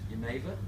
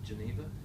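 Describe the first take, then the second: First: It is said with a Dutch pronunciation. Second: It is said with an anglicised English pronunciation. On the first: The speaker calls it right. "The correct pronunciation in Holland is" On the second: The speaker calls it wrong. "That's the English anglicised version"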